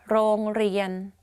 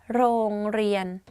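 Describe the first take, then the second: No difference in how they are said.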